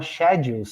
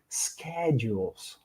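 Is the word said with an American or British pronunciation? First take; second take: British; American. First: It is said with a British pronunciation. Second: It is said with an American pronunciation. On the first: "O inglês britânico fala schedules" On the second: "em inglês americano são schedules"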